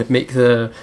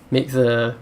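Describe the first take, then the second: No difference in how they are said.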